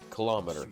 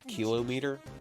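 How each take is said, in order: First: The stress is on the second syllable. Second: The stress is on the first syllable. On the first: This is the usual way people say it. "Why do we pronounce kilometer the way we pronounce it?" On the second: This matches the pattern of millimeter and centimeter. "Shouldn't it be kilometer?"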